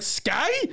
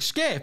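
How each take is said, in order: First: The vowel sounds like 'eye', as in sky. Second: The vowel sounds like 'ee', as in ski. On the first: The speaker said it his own way. The speaker calls it right. "Fucking say it right" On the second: Someone else said it. The speaker calls it wrong. "He's like"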